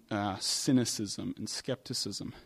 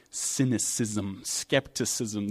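First: Said in the usual way. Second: Cynicism and skepticism each drawn out slowly, every syllable weighed; slow, weighed words. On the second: Shown as a demonstration. Preacher slowly naming Cynicism and skepticism to the congregation. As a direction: lay out Cynicism, skepticism slowly as if holding them up to look at. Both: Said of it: "These are really ugly words".

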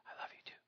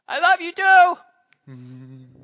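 First: Faint breathy whisper, barely audible; little whisper. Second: Put-on high, loud, slow drawn-out child voice; child's loud reply. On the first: Retold or imitated. Wife whispering to son at bedtime, hushed. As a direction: whisper it like a secret. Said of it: "I can hear a little whisper". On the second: Son calling back his goodnight, loud and drawn out. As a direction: belt it out like a happy little boy. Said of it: "from wife to son".

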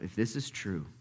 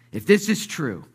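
First: Quiet wondering. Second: Higher, louder, hopeful realization; rising urgency. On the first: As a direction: think it to yourself, softly. Peter privately wondering, building to desperation. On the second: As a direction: lift the thought with sudden urgency. Peter's thought repeated with rising urgency. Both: Acted.

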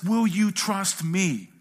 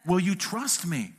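First: Slow, louder, drawn-out plea "Will you trust me?"; gentle voice of Jesus. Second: Said in the usual way. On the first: Acted. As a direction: ask it slowly like Jesus inviting you. Jesus asks the believer.

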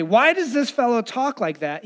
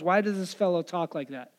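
First: Mock objection said aloud; Pharisees speaking out. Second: Softer, inward aside; thinking to themselves. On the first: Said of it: "the Pharisees say". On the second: Retold or imitated. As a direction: say it softly, as a private thought. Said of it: "They were thinking to themselves".

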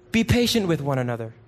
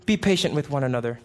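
Both takes have the same delivery.

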